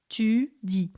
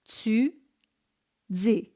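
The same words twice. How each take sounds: First: The t is plain, with no hiss. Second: The t has a slight hissing release. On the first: "in standard French, we would say tu dis" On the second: "In Quebec, you would have a little bit of affrication"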